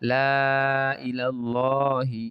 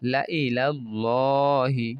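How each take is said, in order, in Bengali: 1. স্বরধ্বনি টেনে লম্বা করা হয়। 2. স্বরধ্বনি ছোট রাখা হয়।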